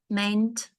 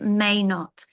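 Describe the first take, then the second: First: It is squeezed into one contracted word. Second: It is said as two separate words. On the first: The speaker calls it wrong. "We don't say that" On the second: The speaker calls it right. "We have to separate it"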